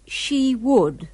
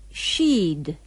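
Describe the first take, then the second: First: Would is said as a full separate word. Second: Would is reduced to a d sound.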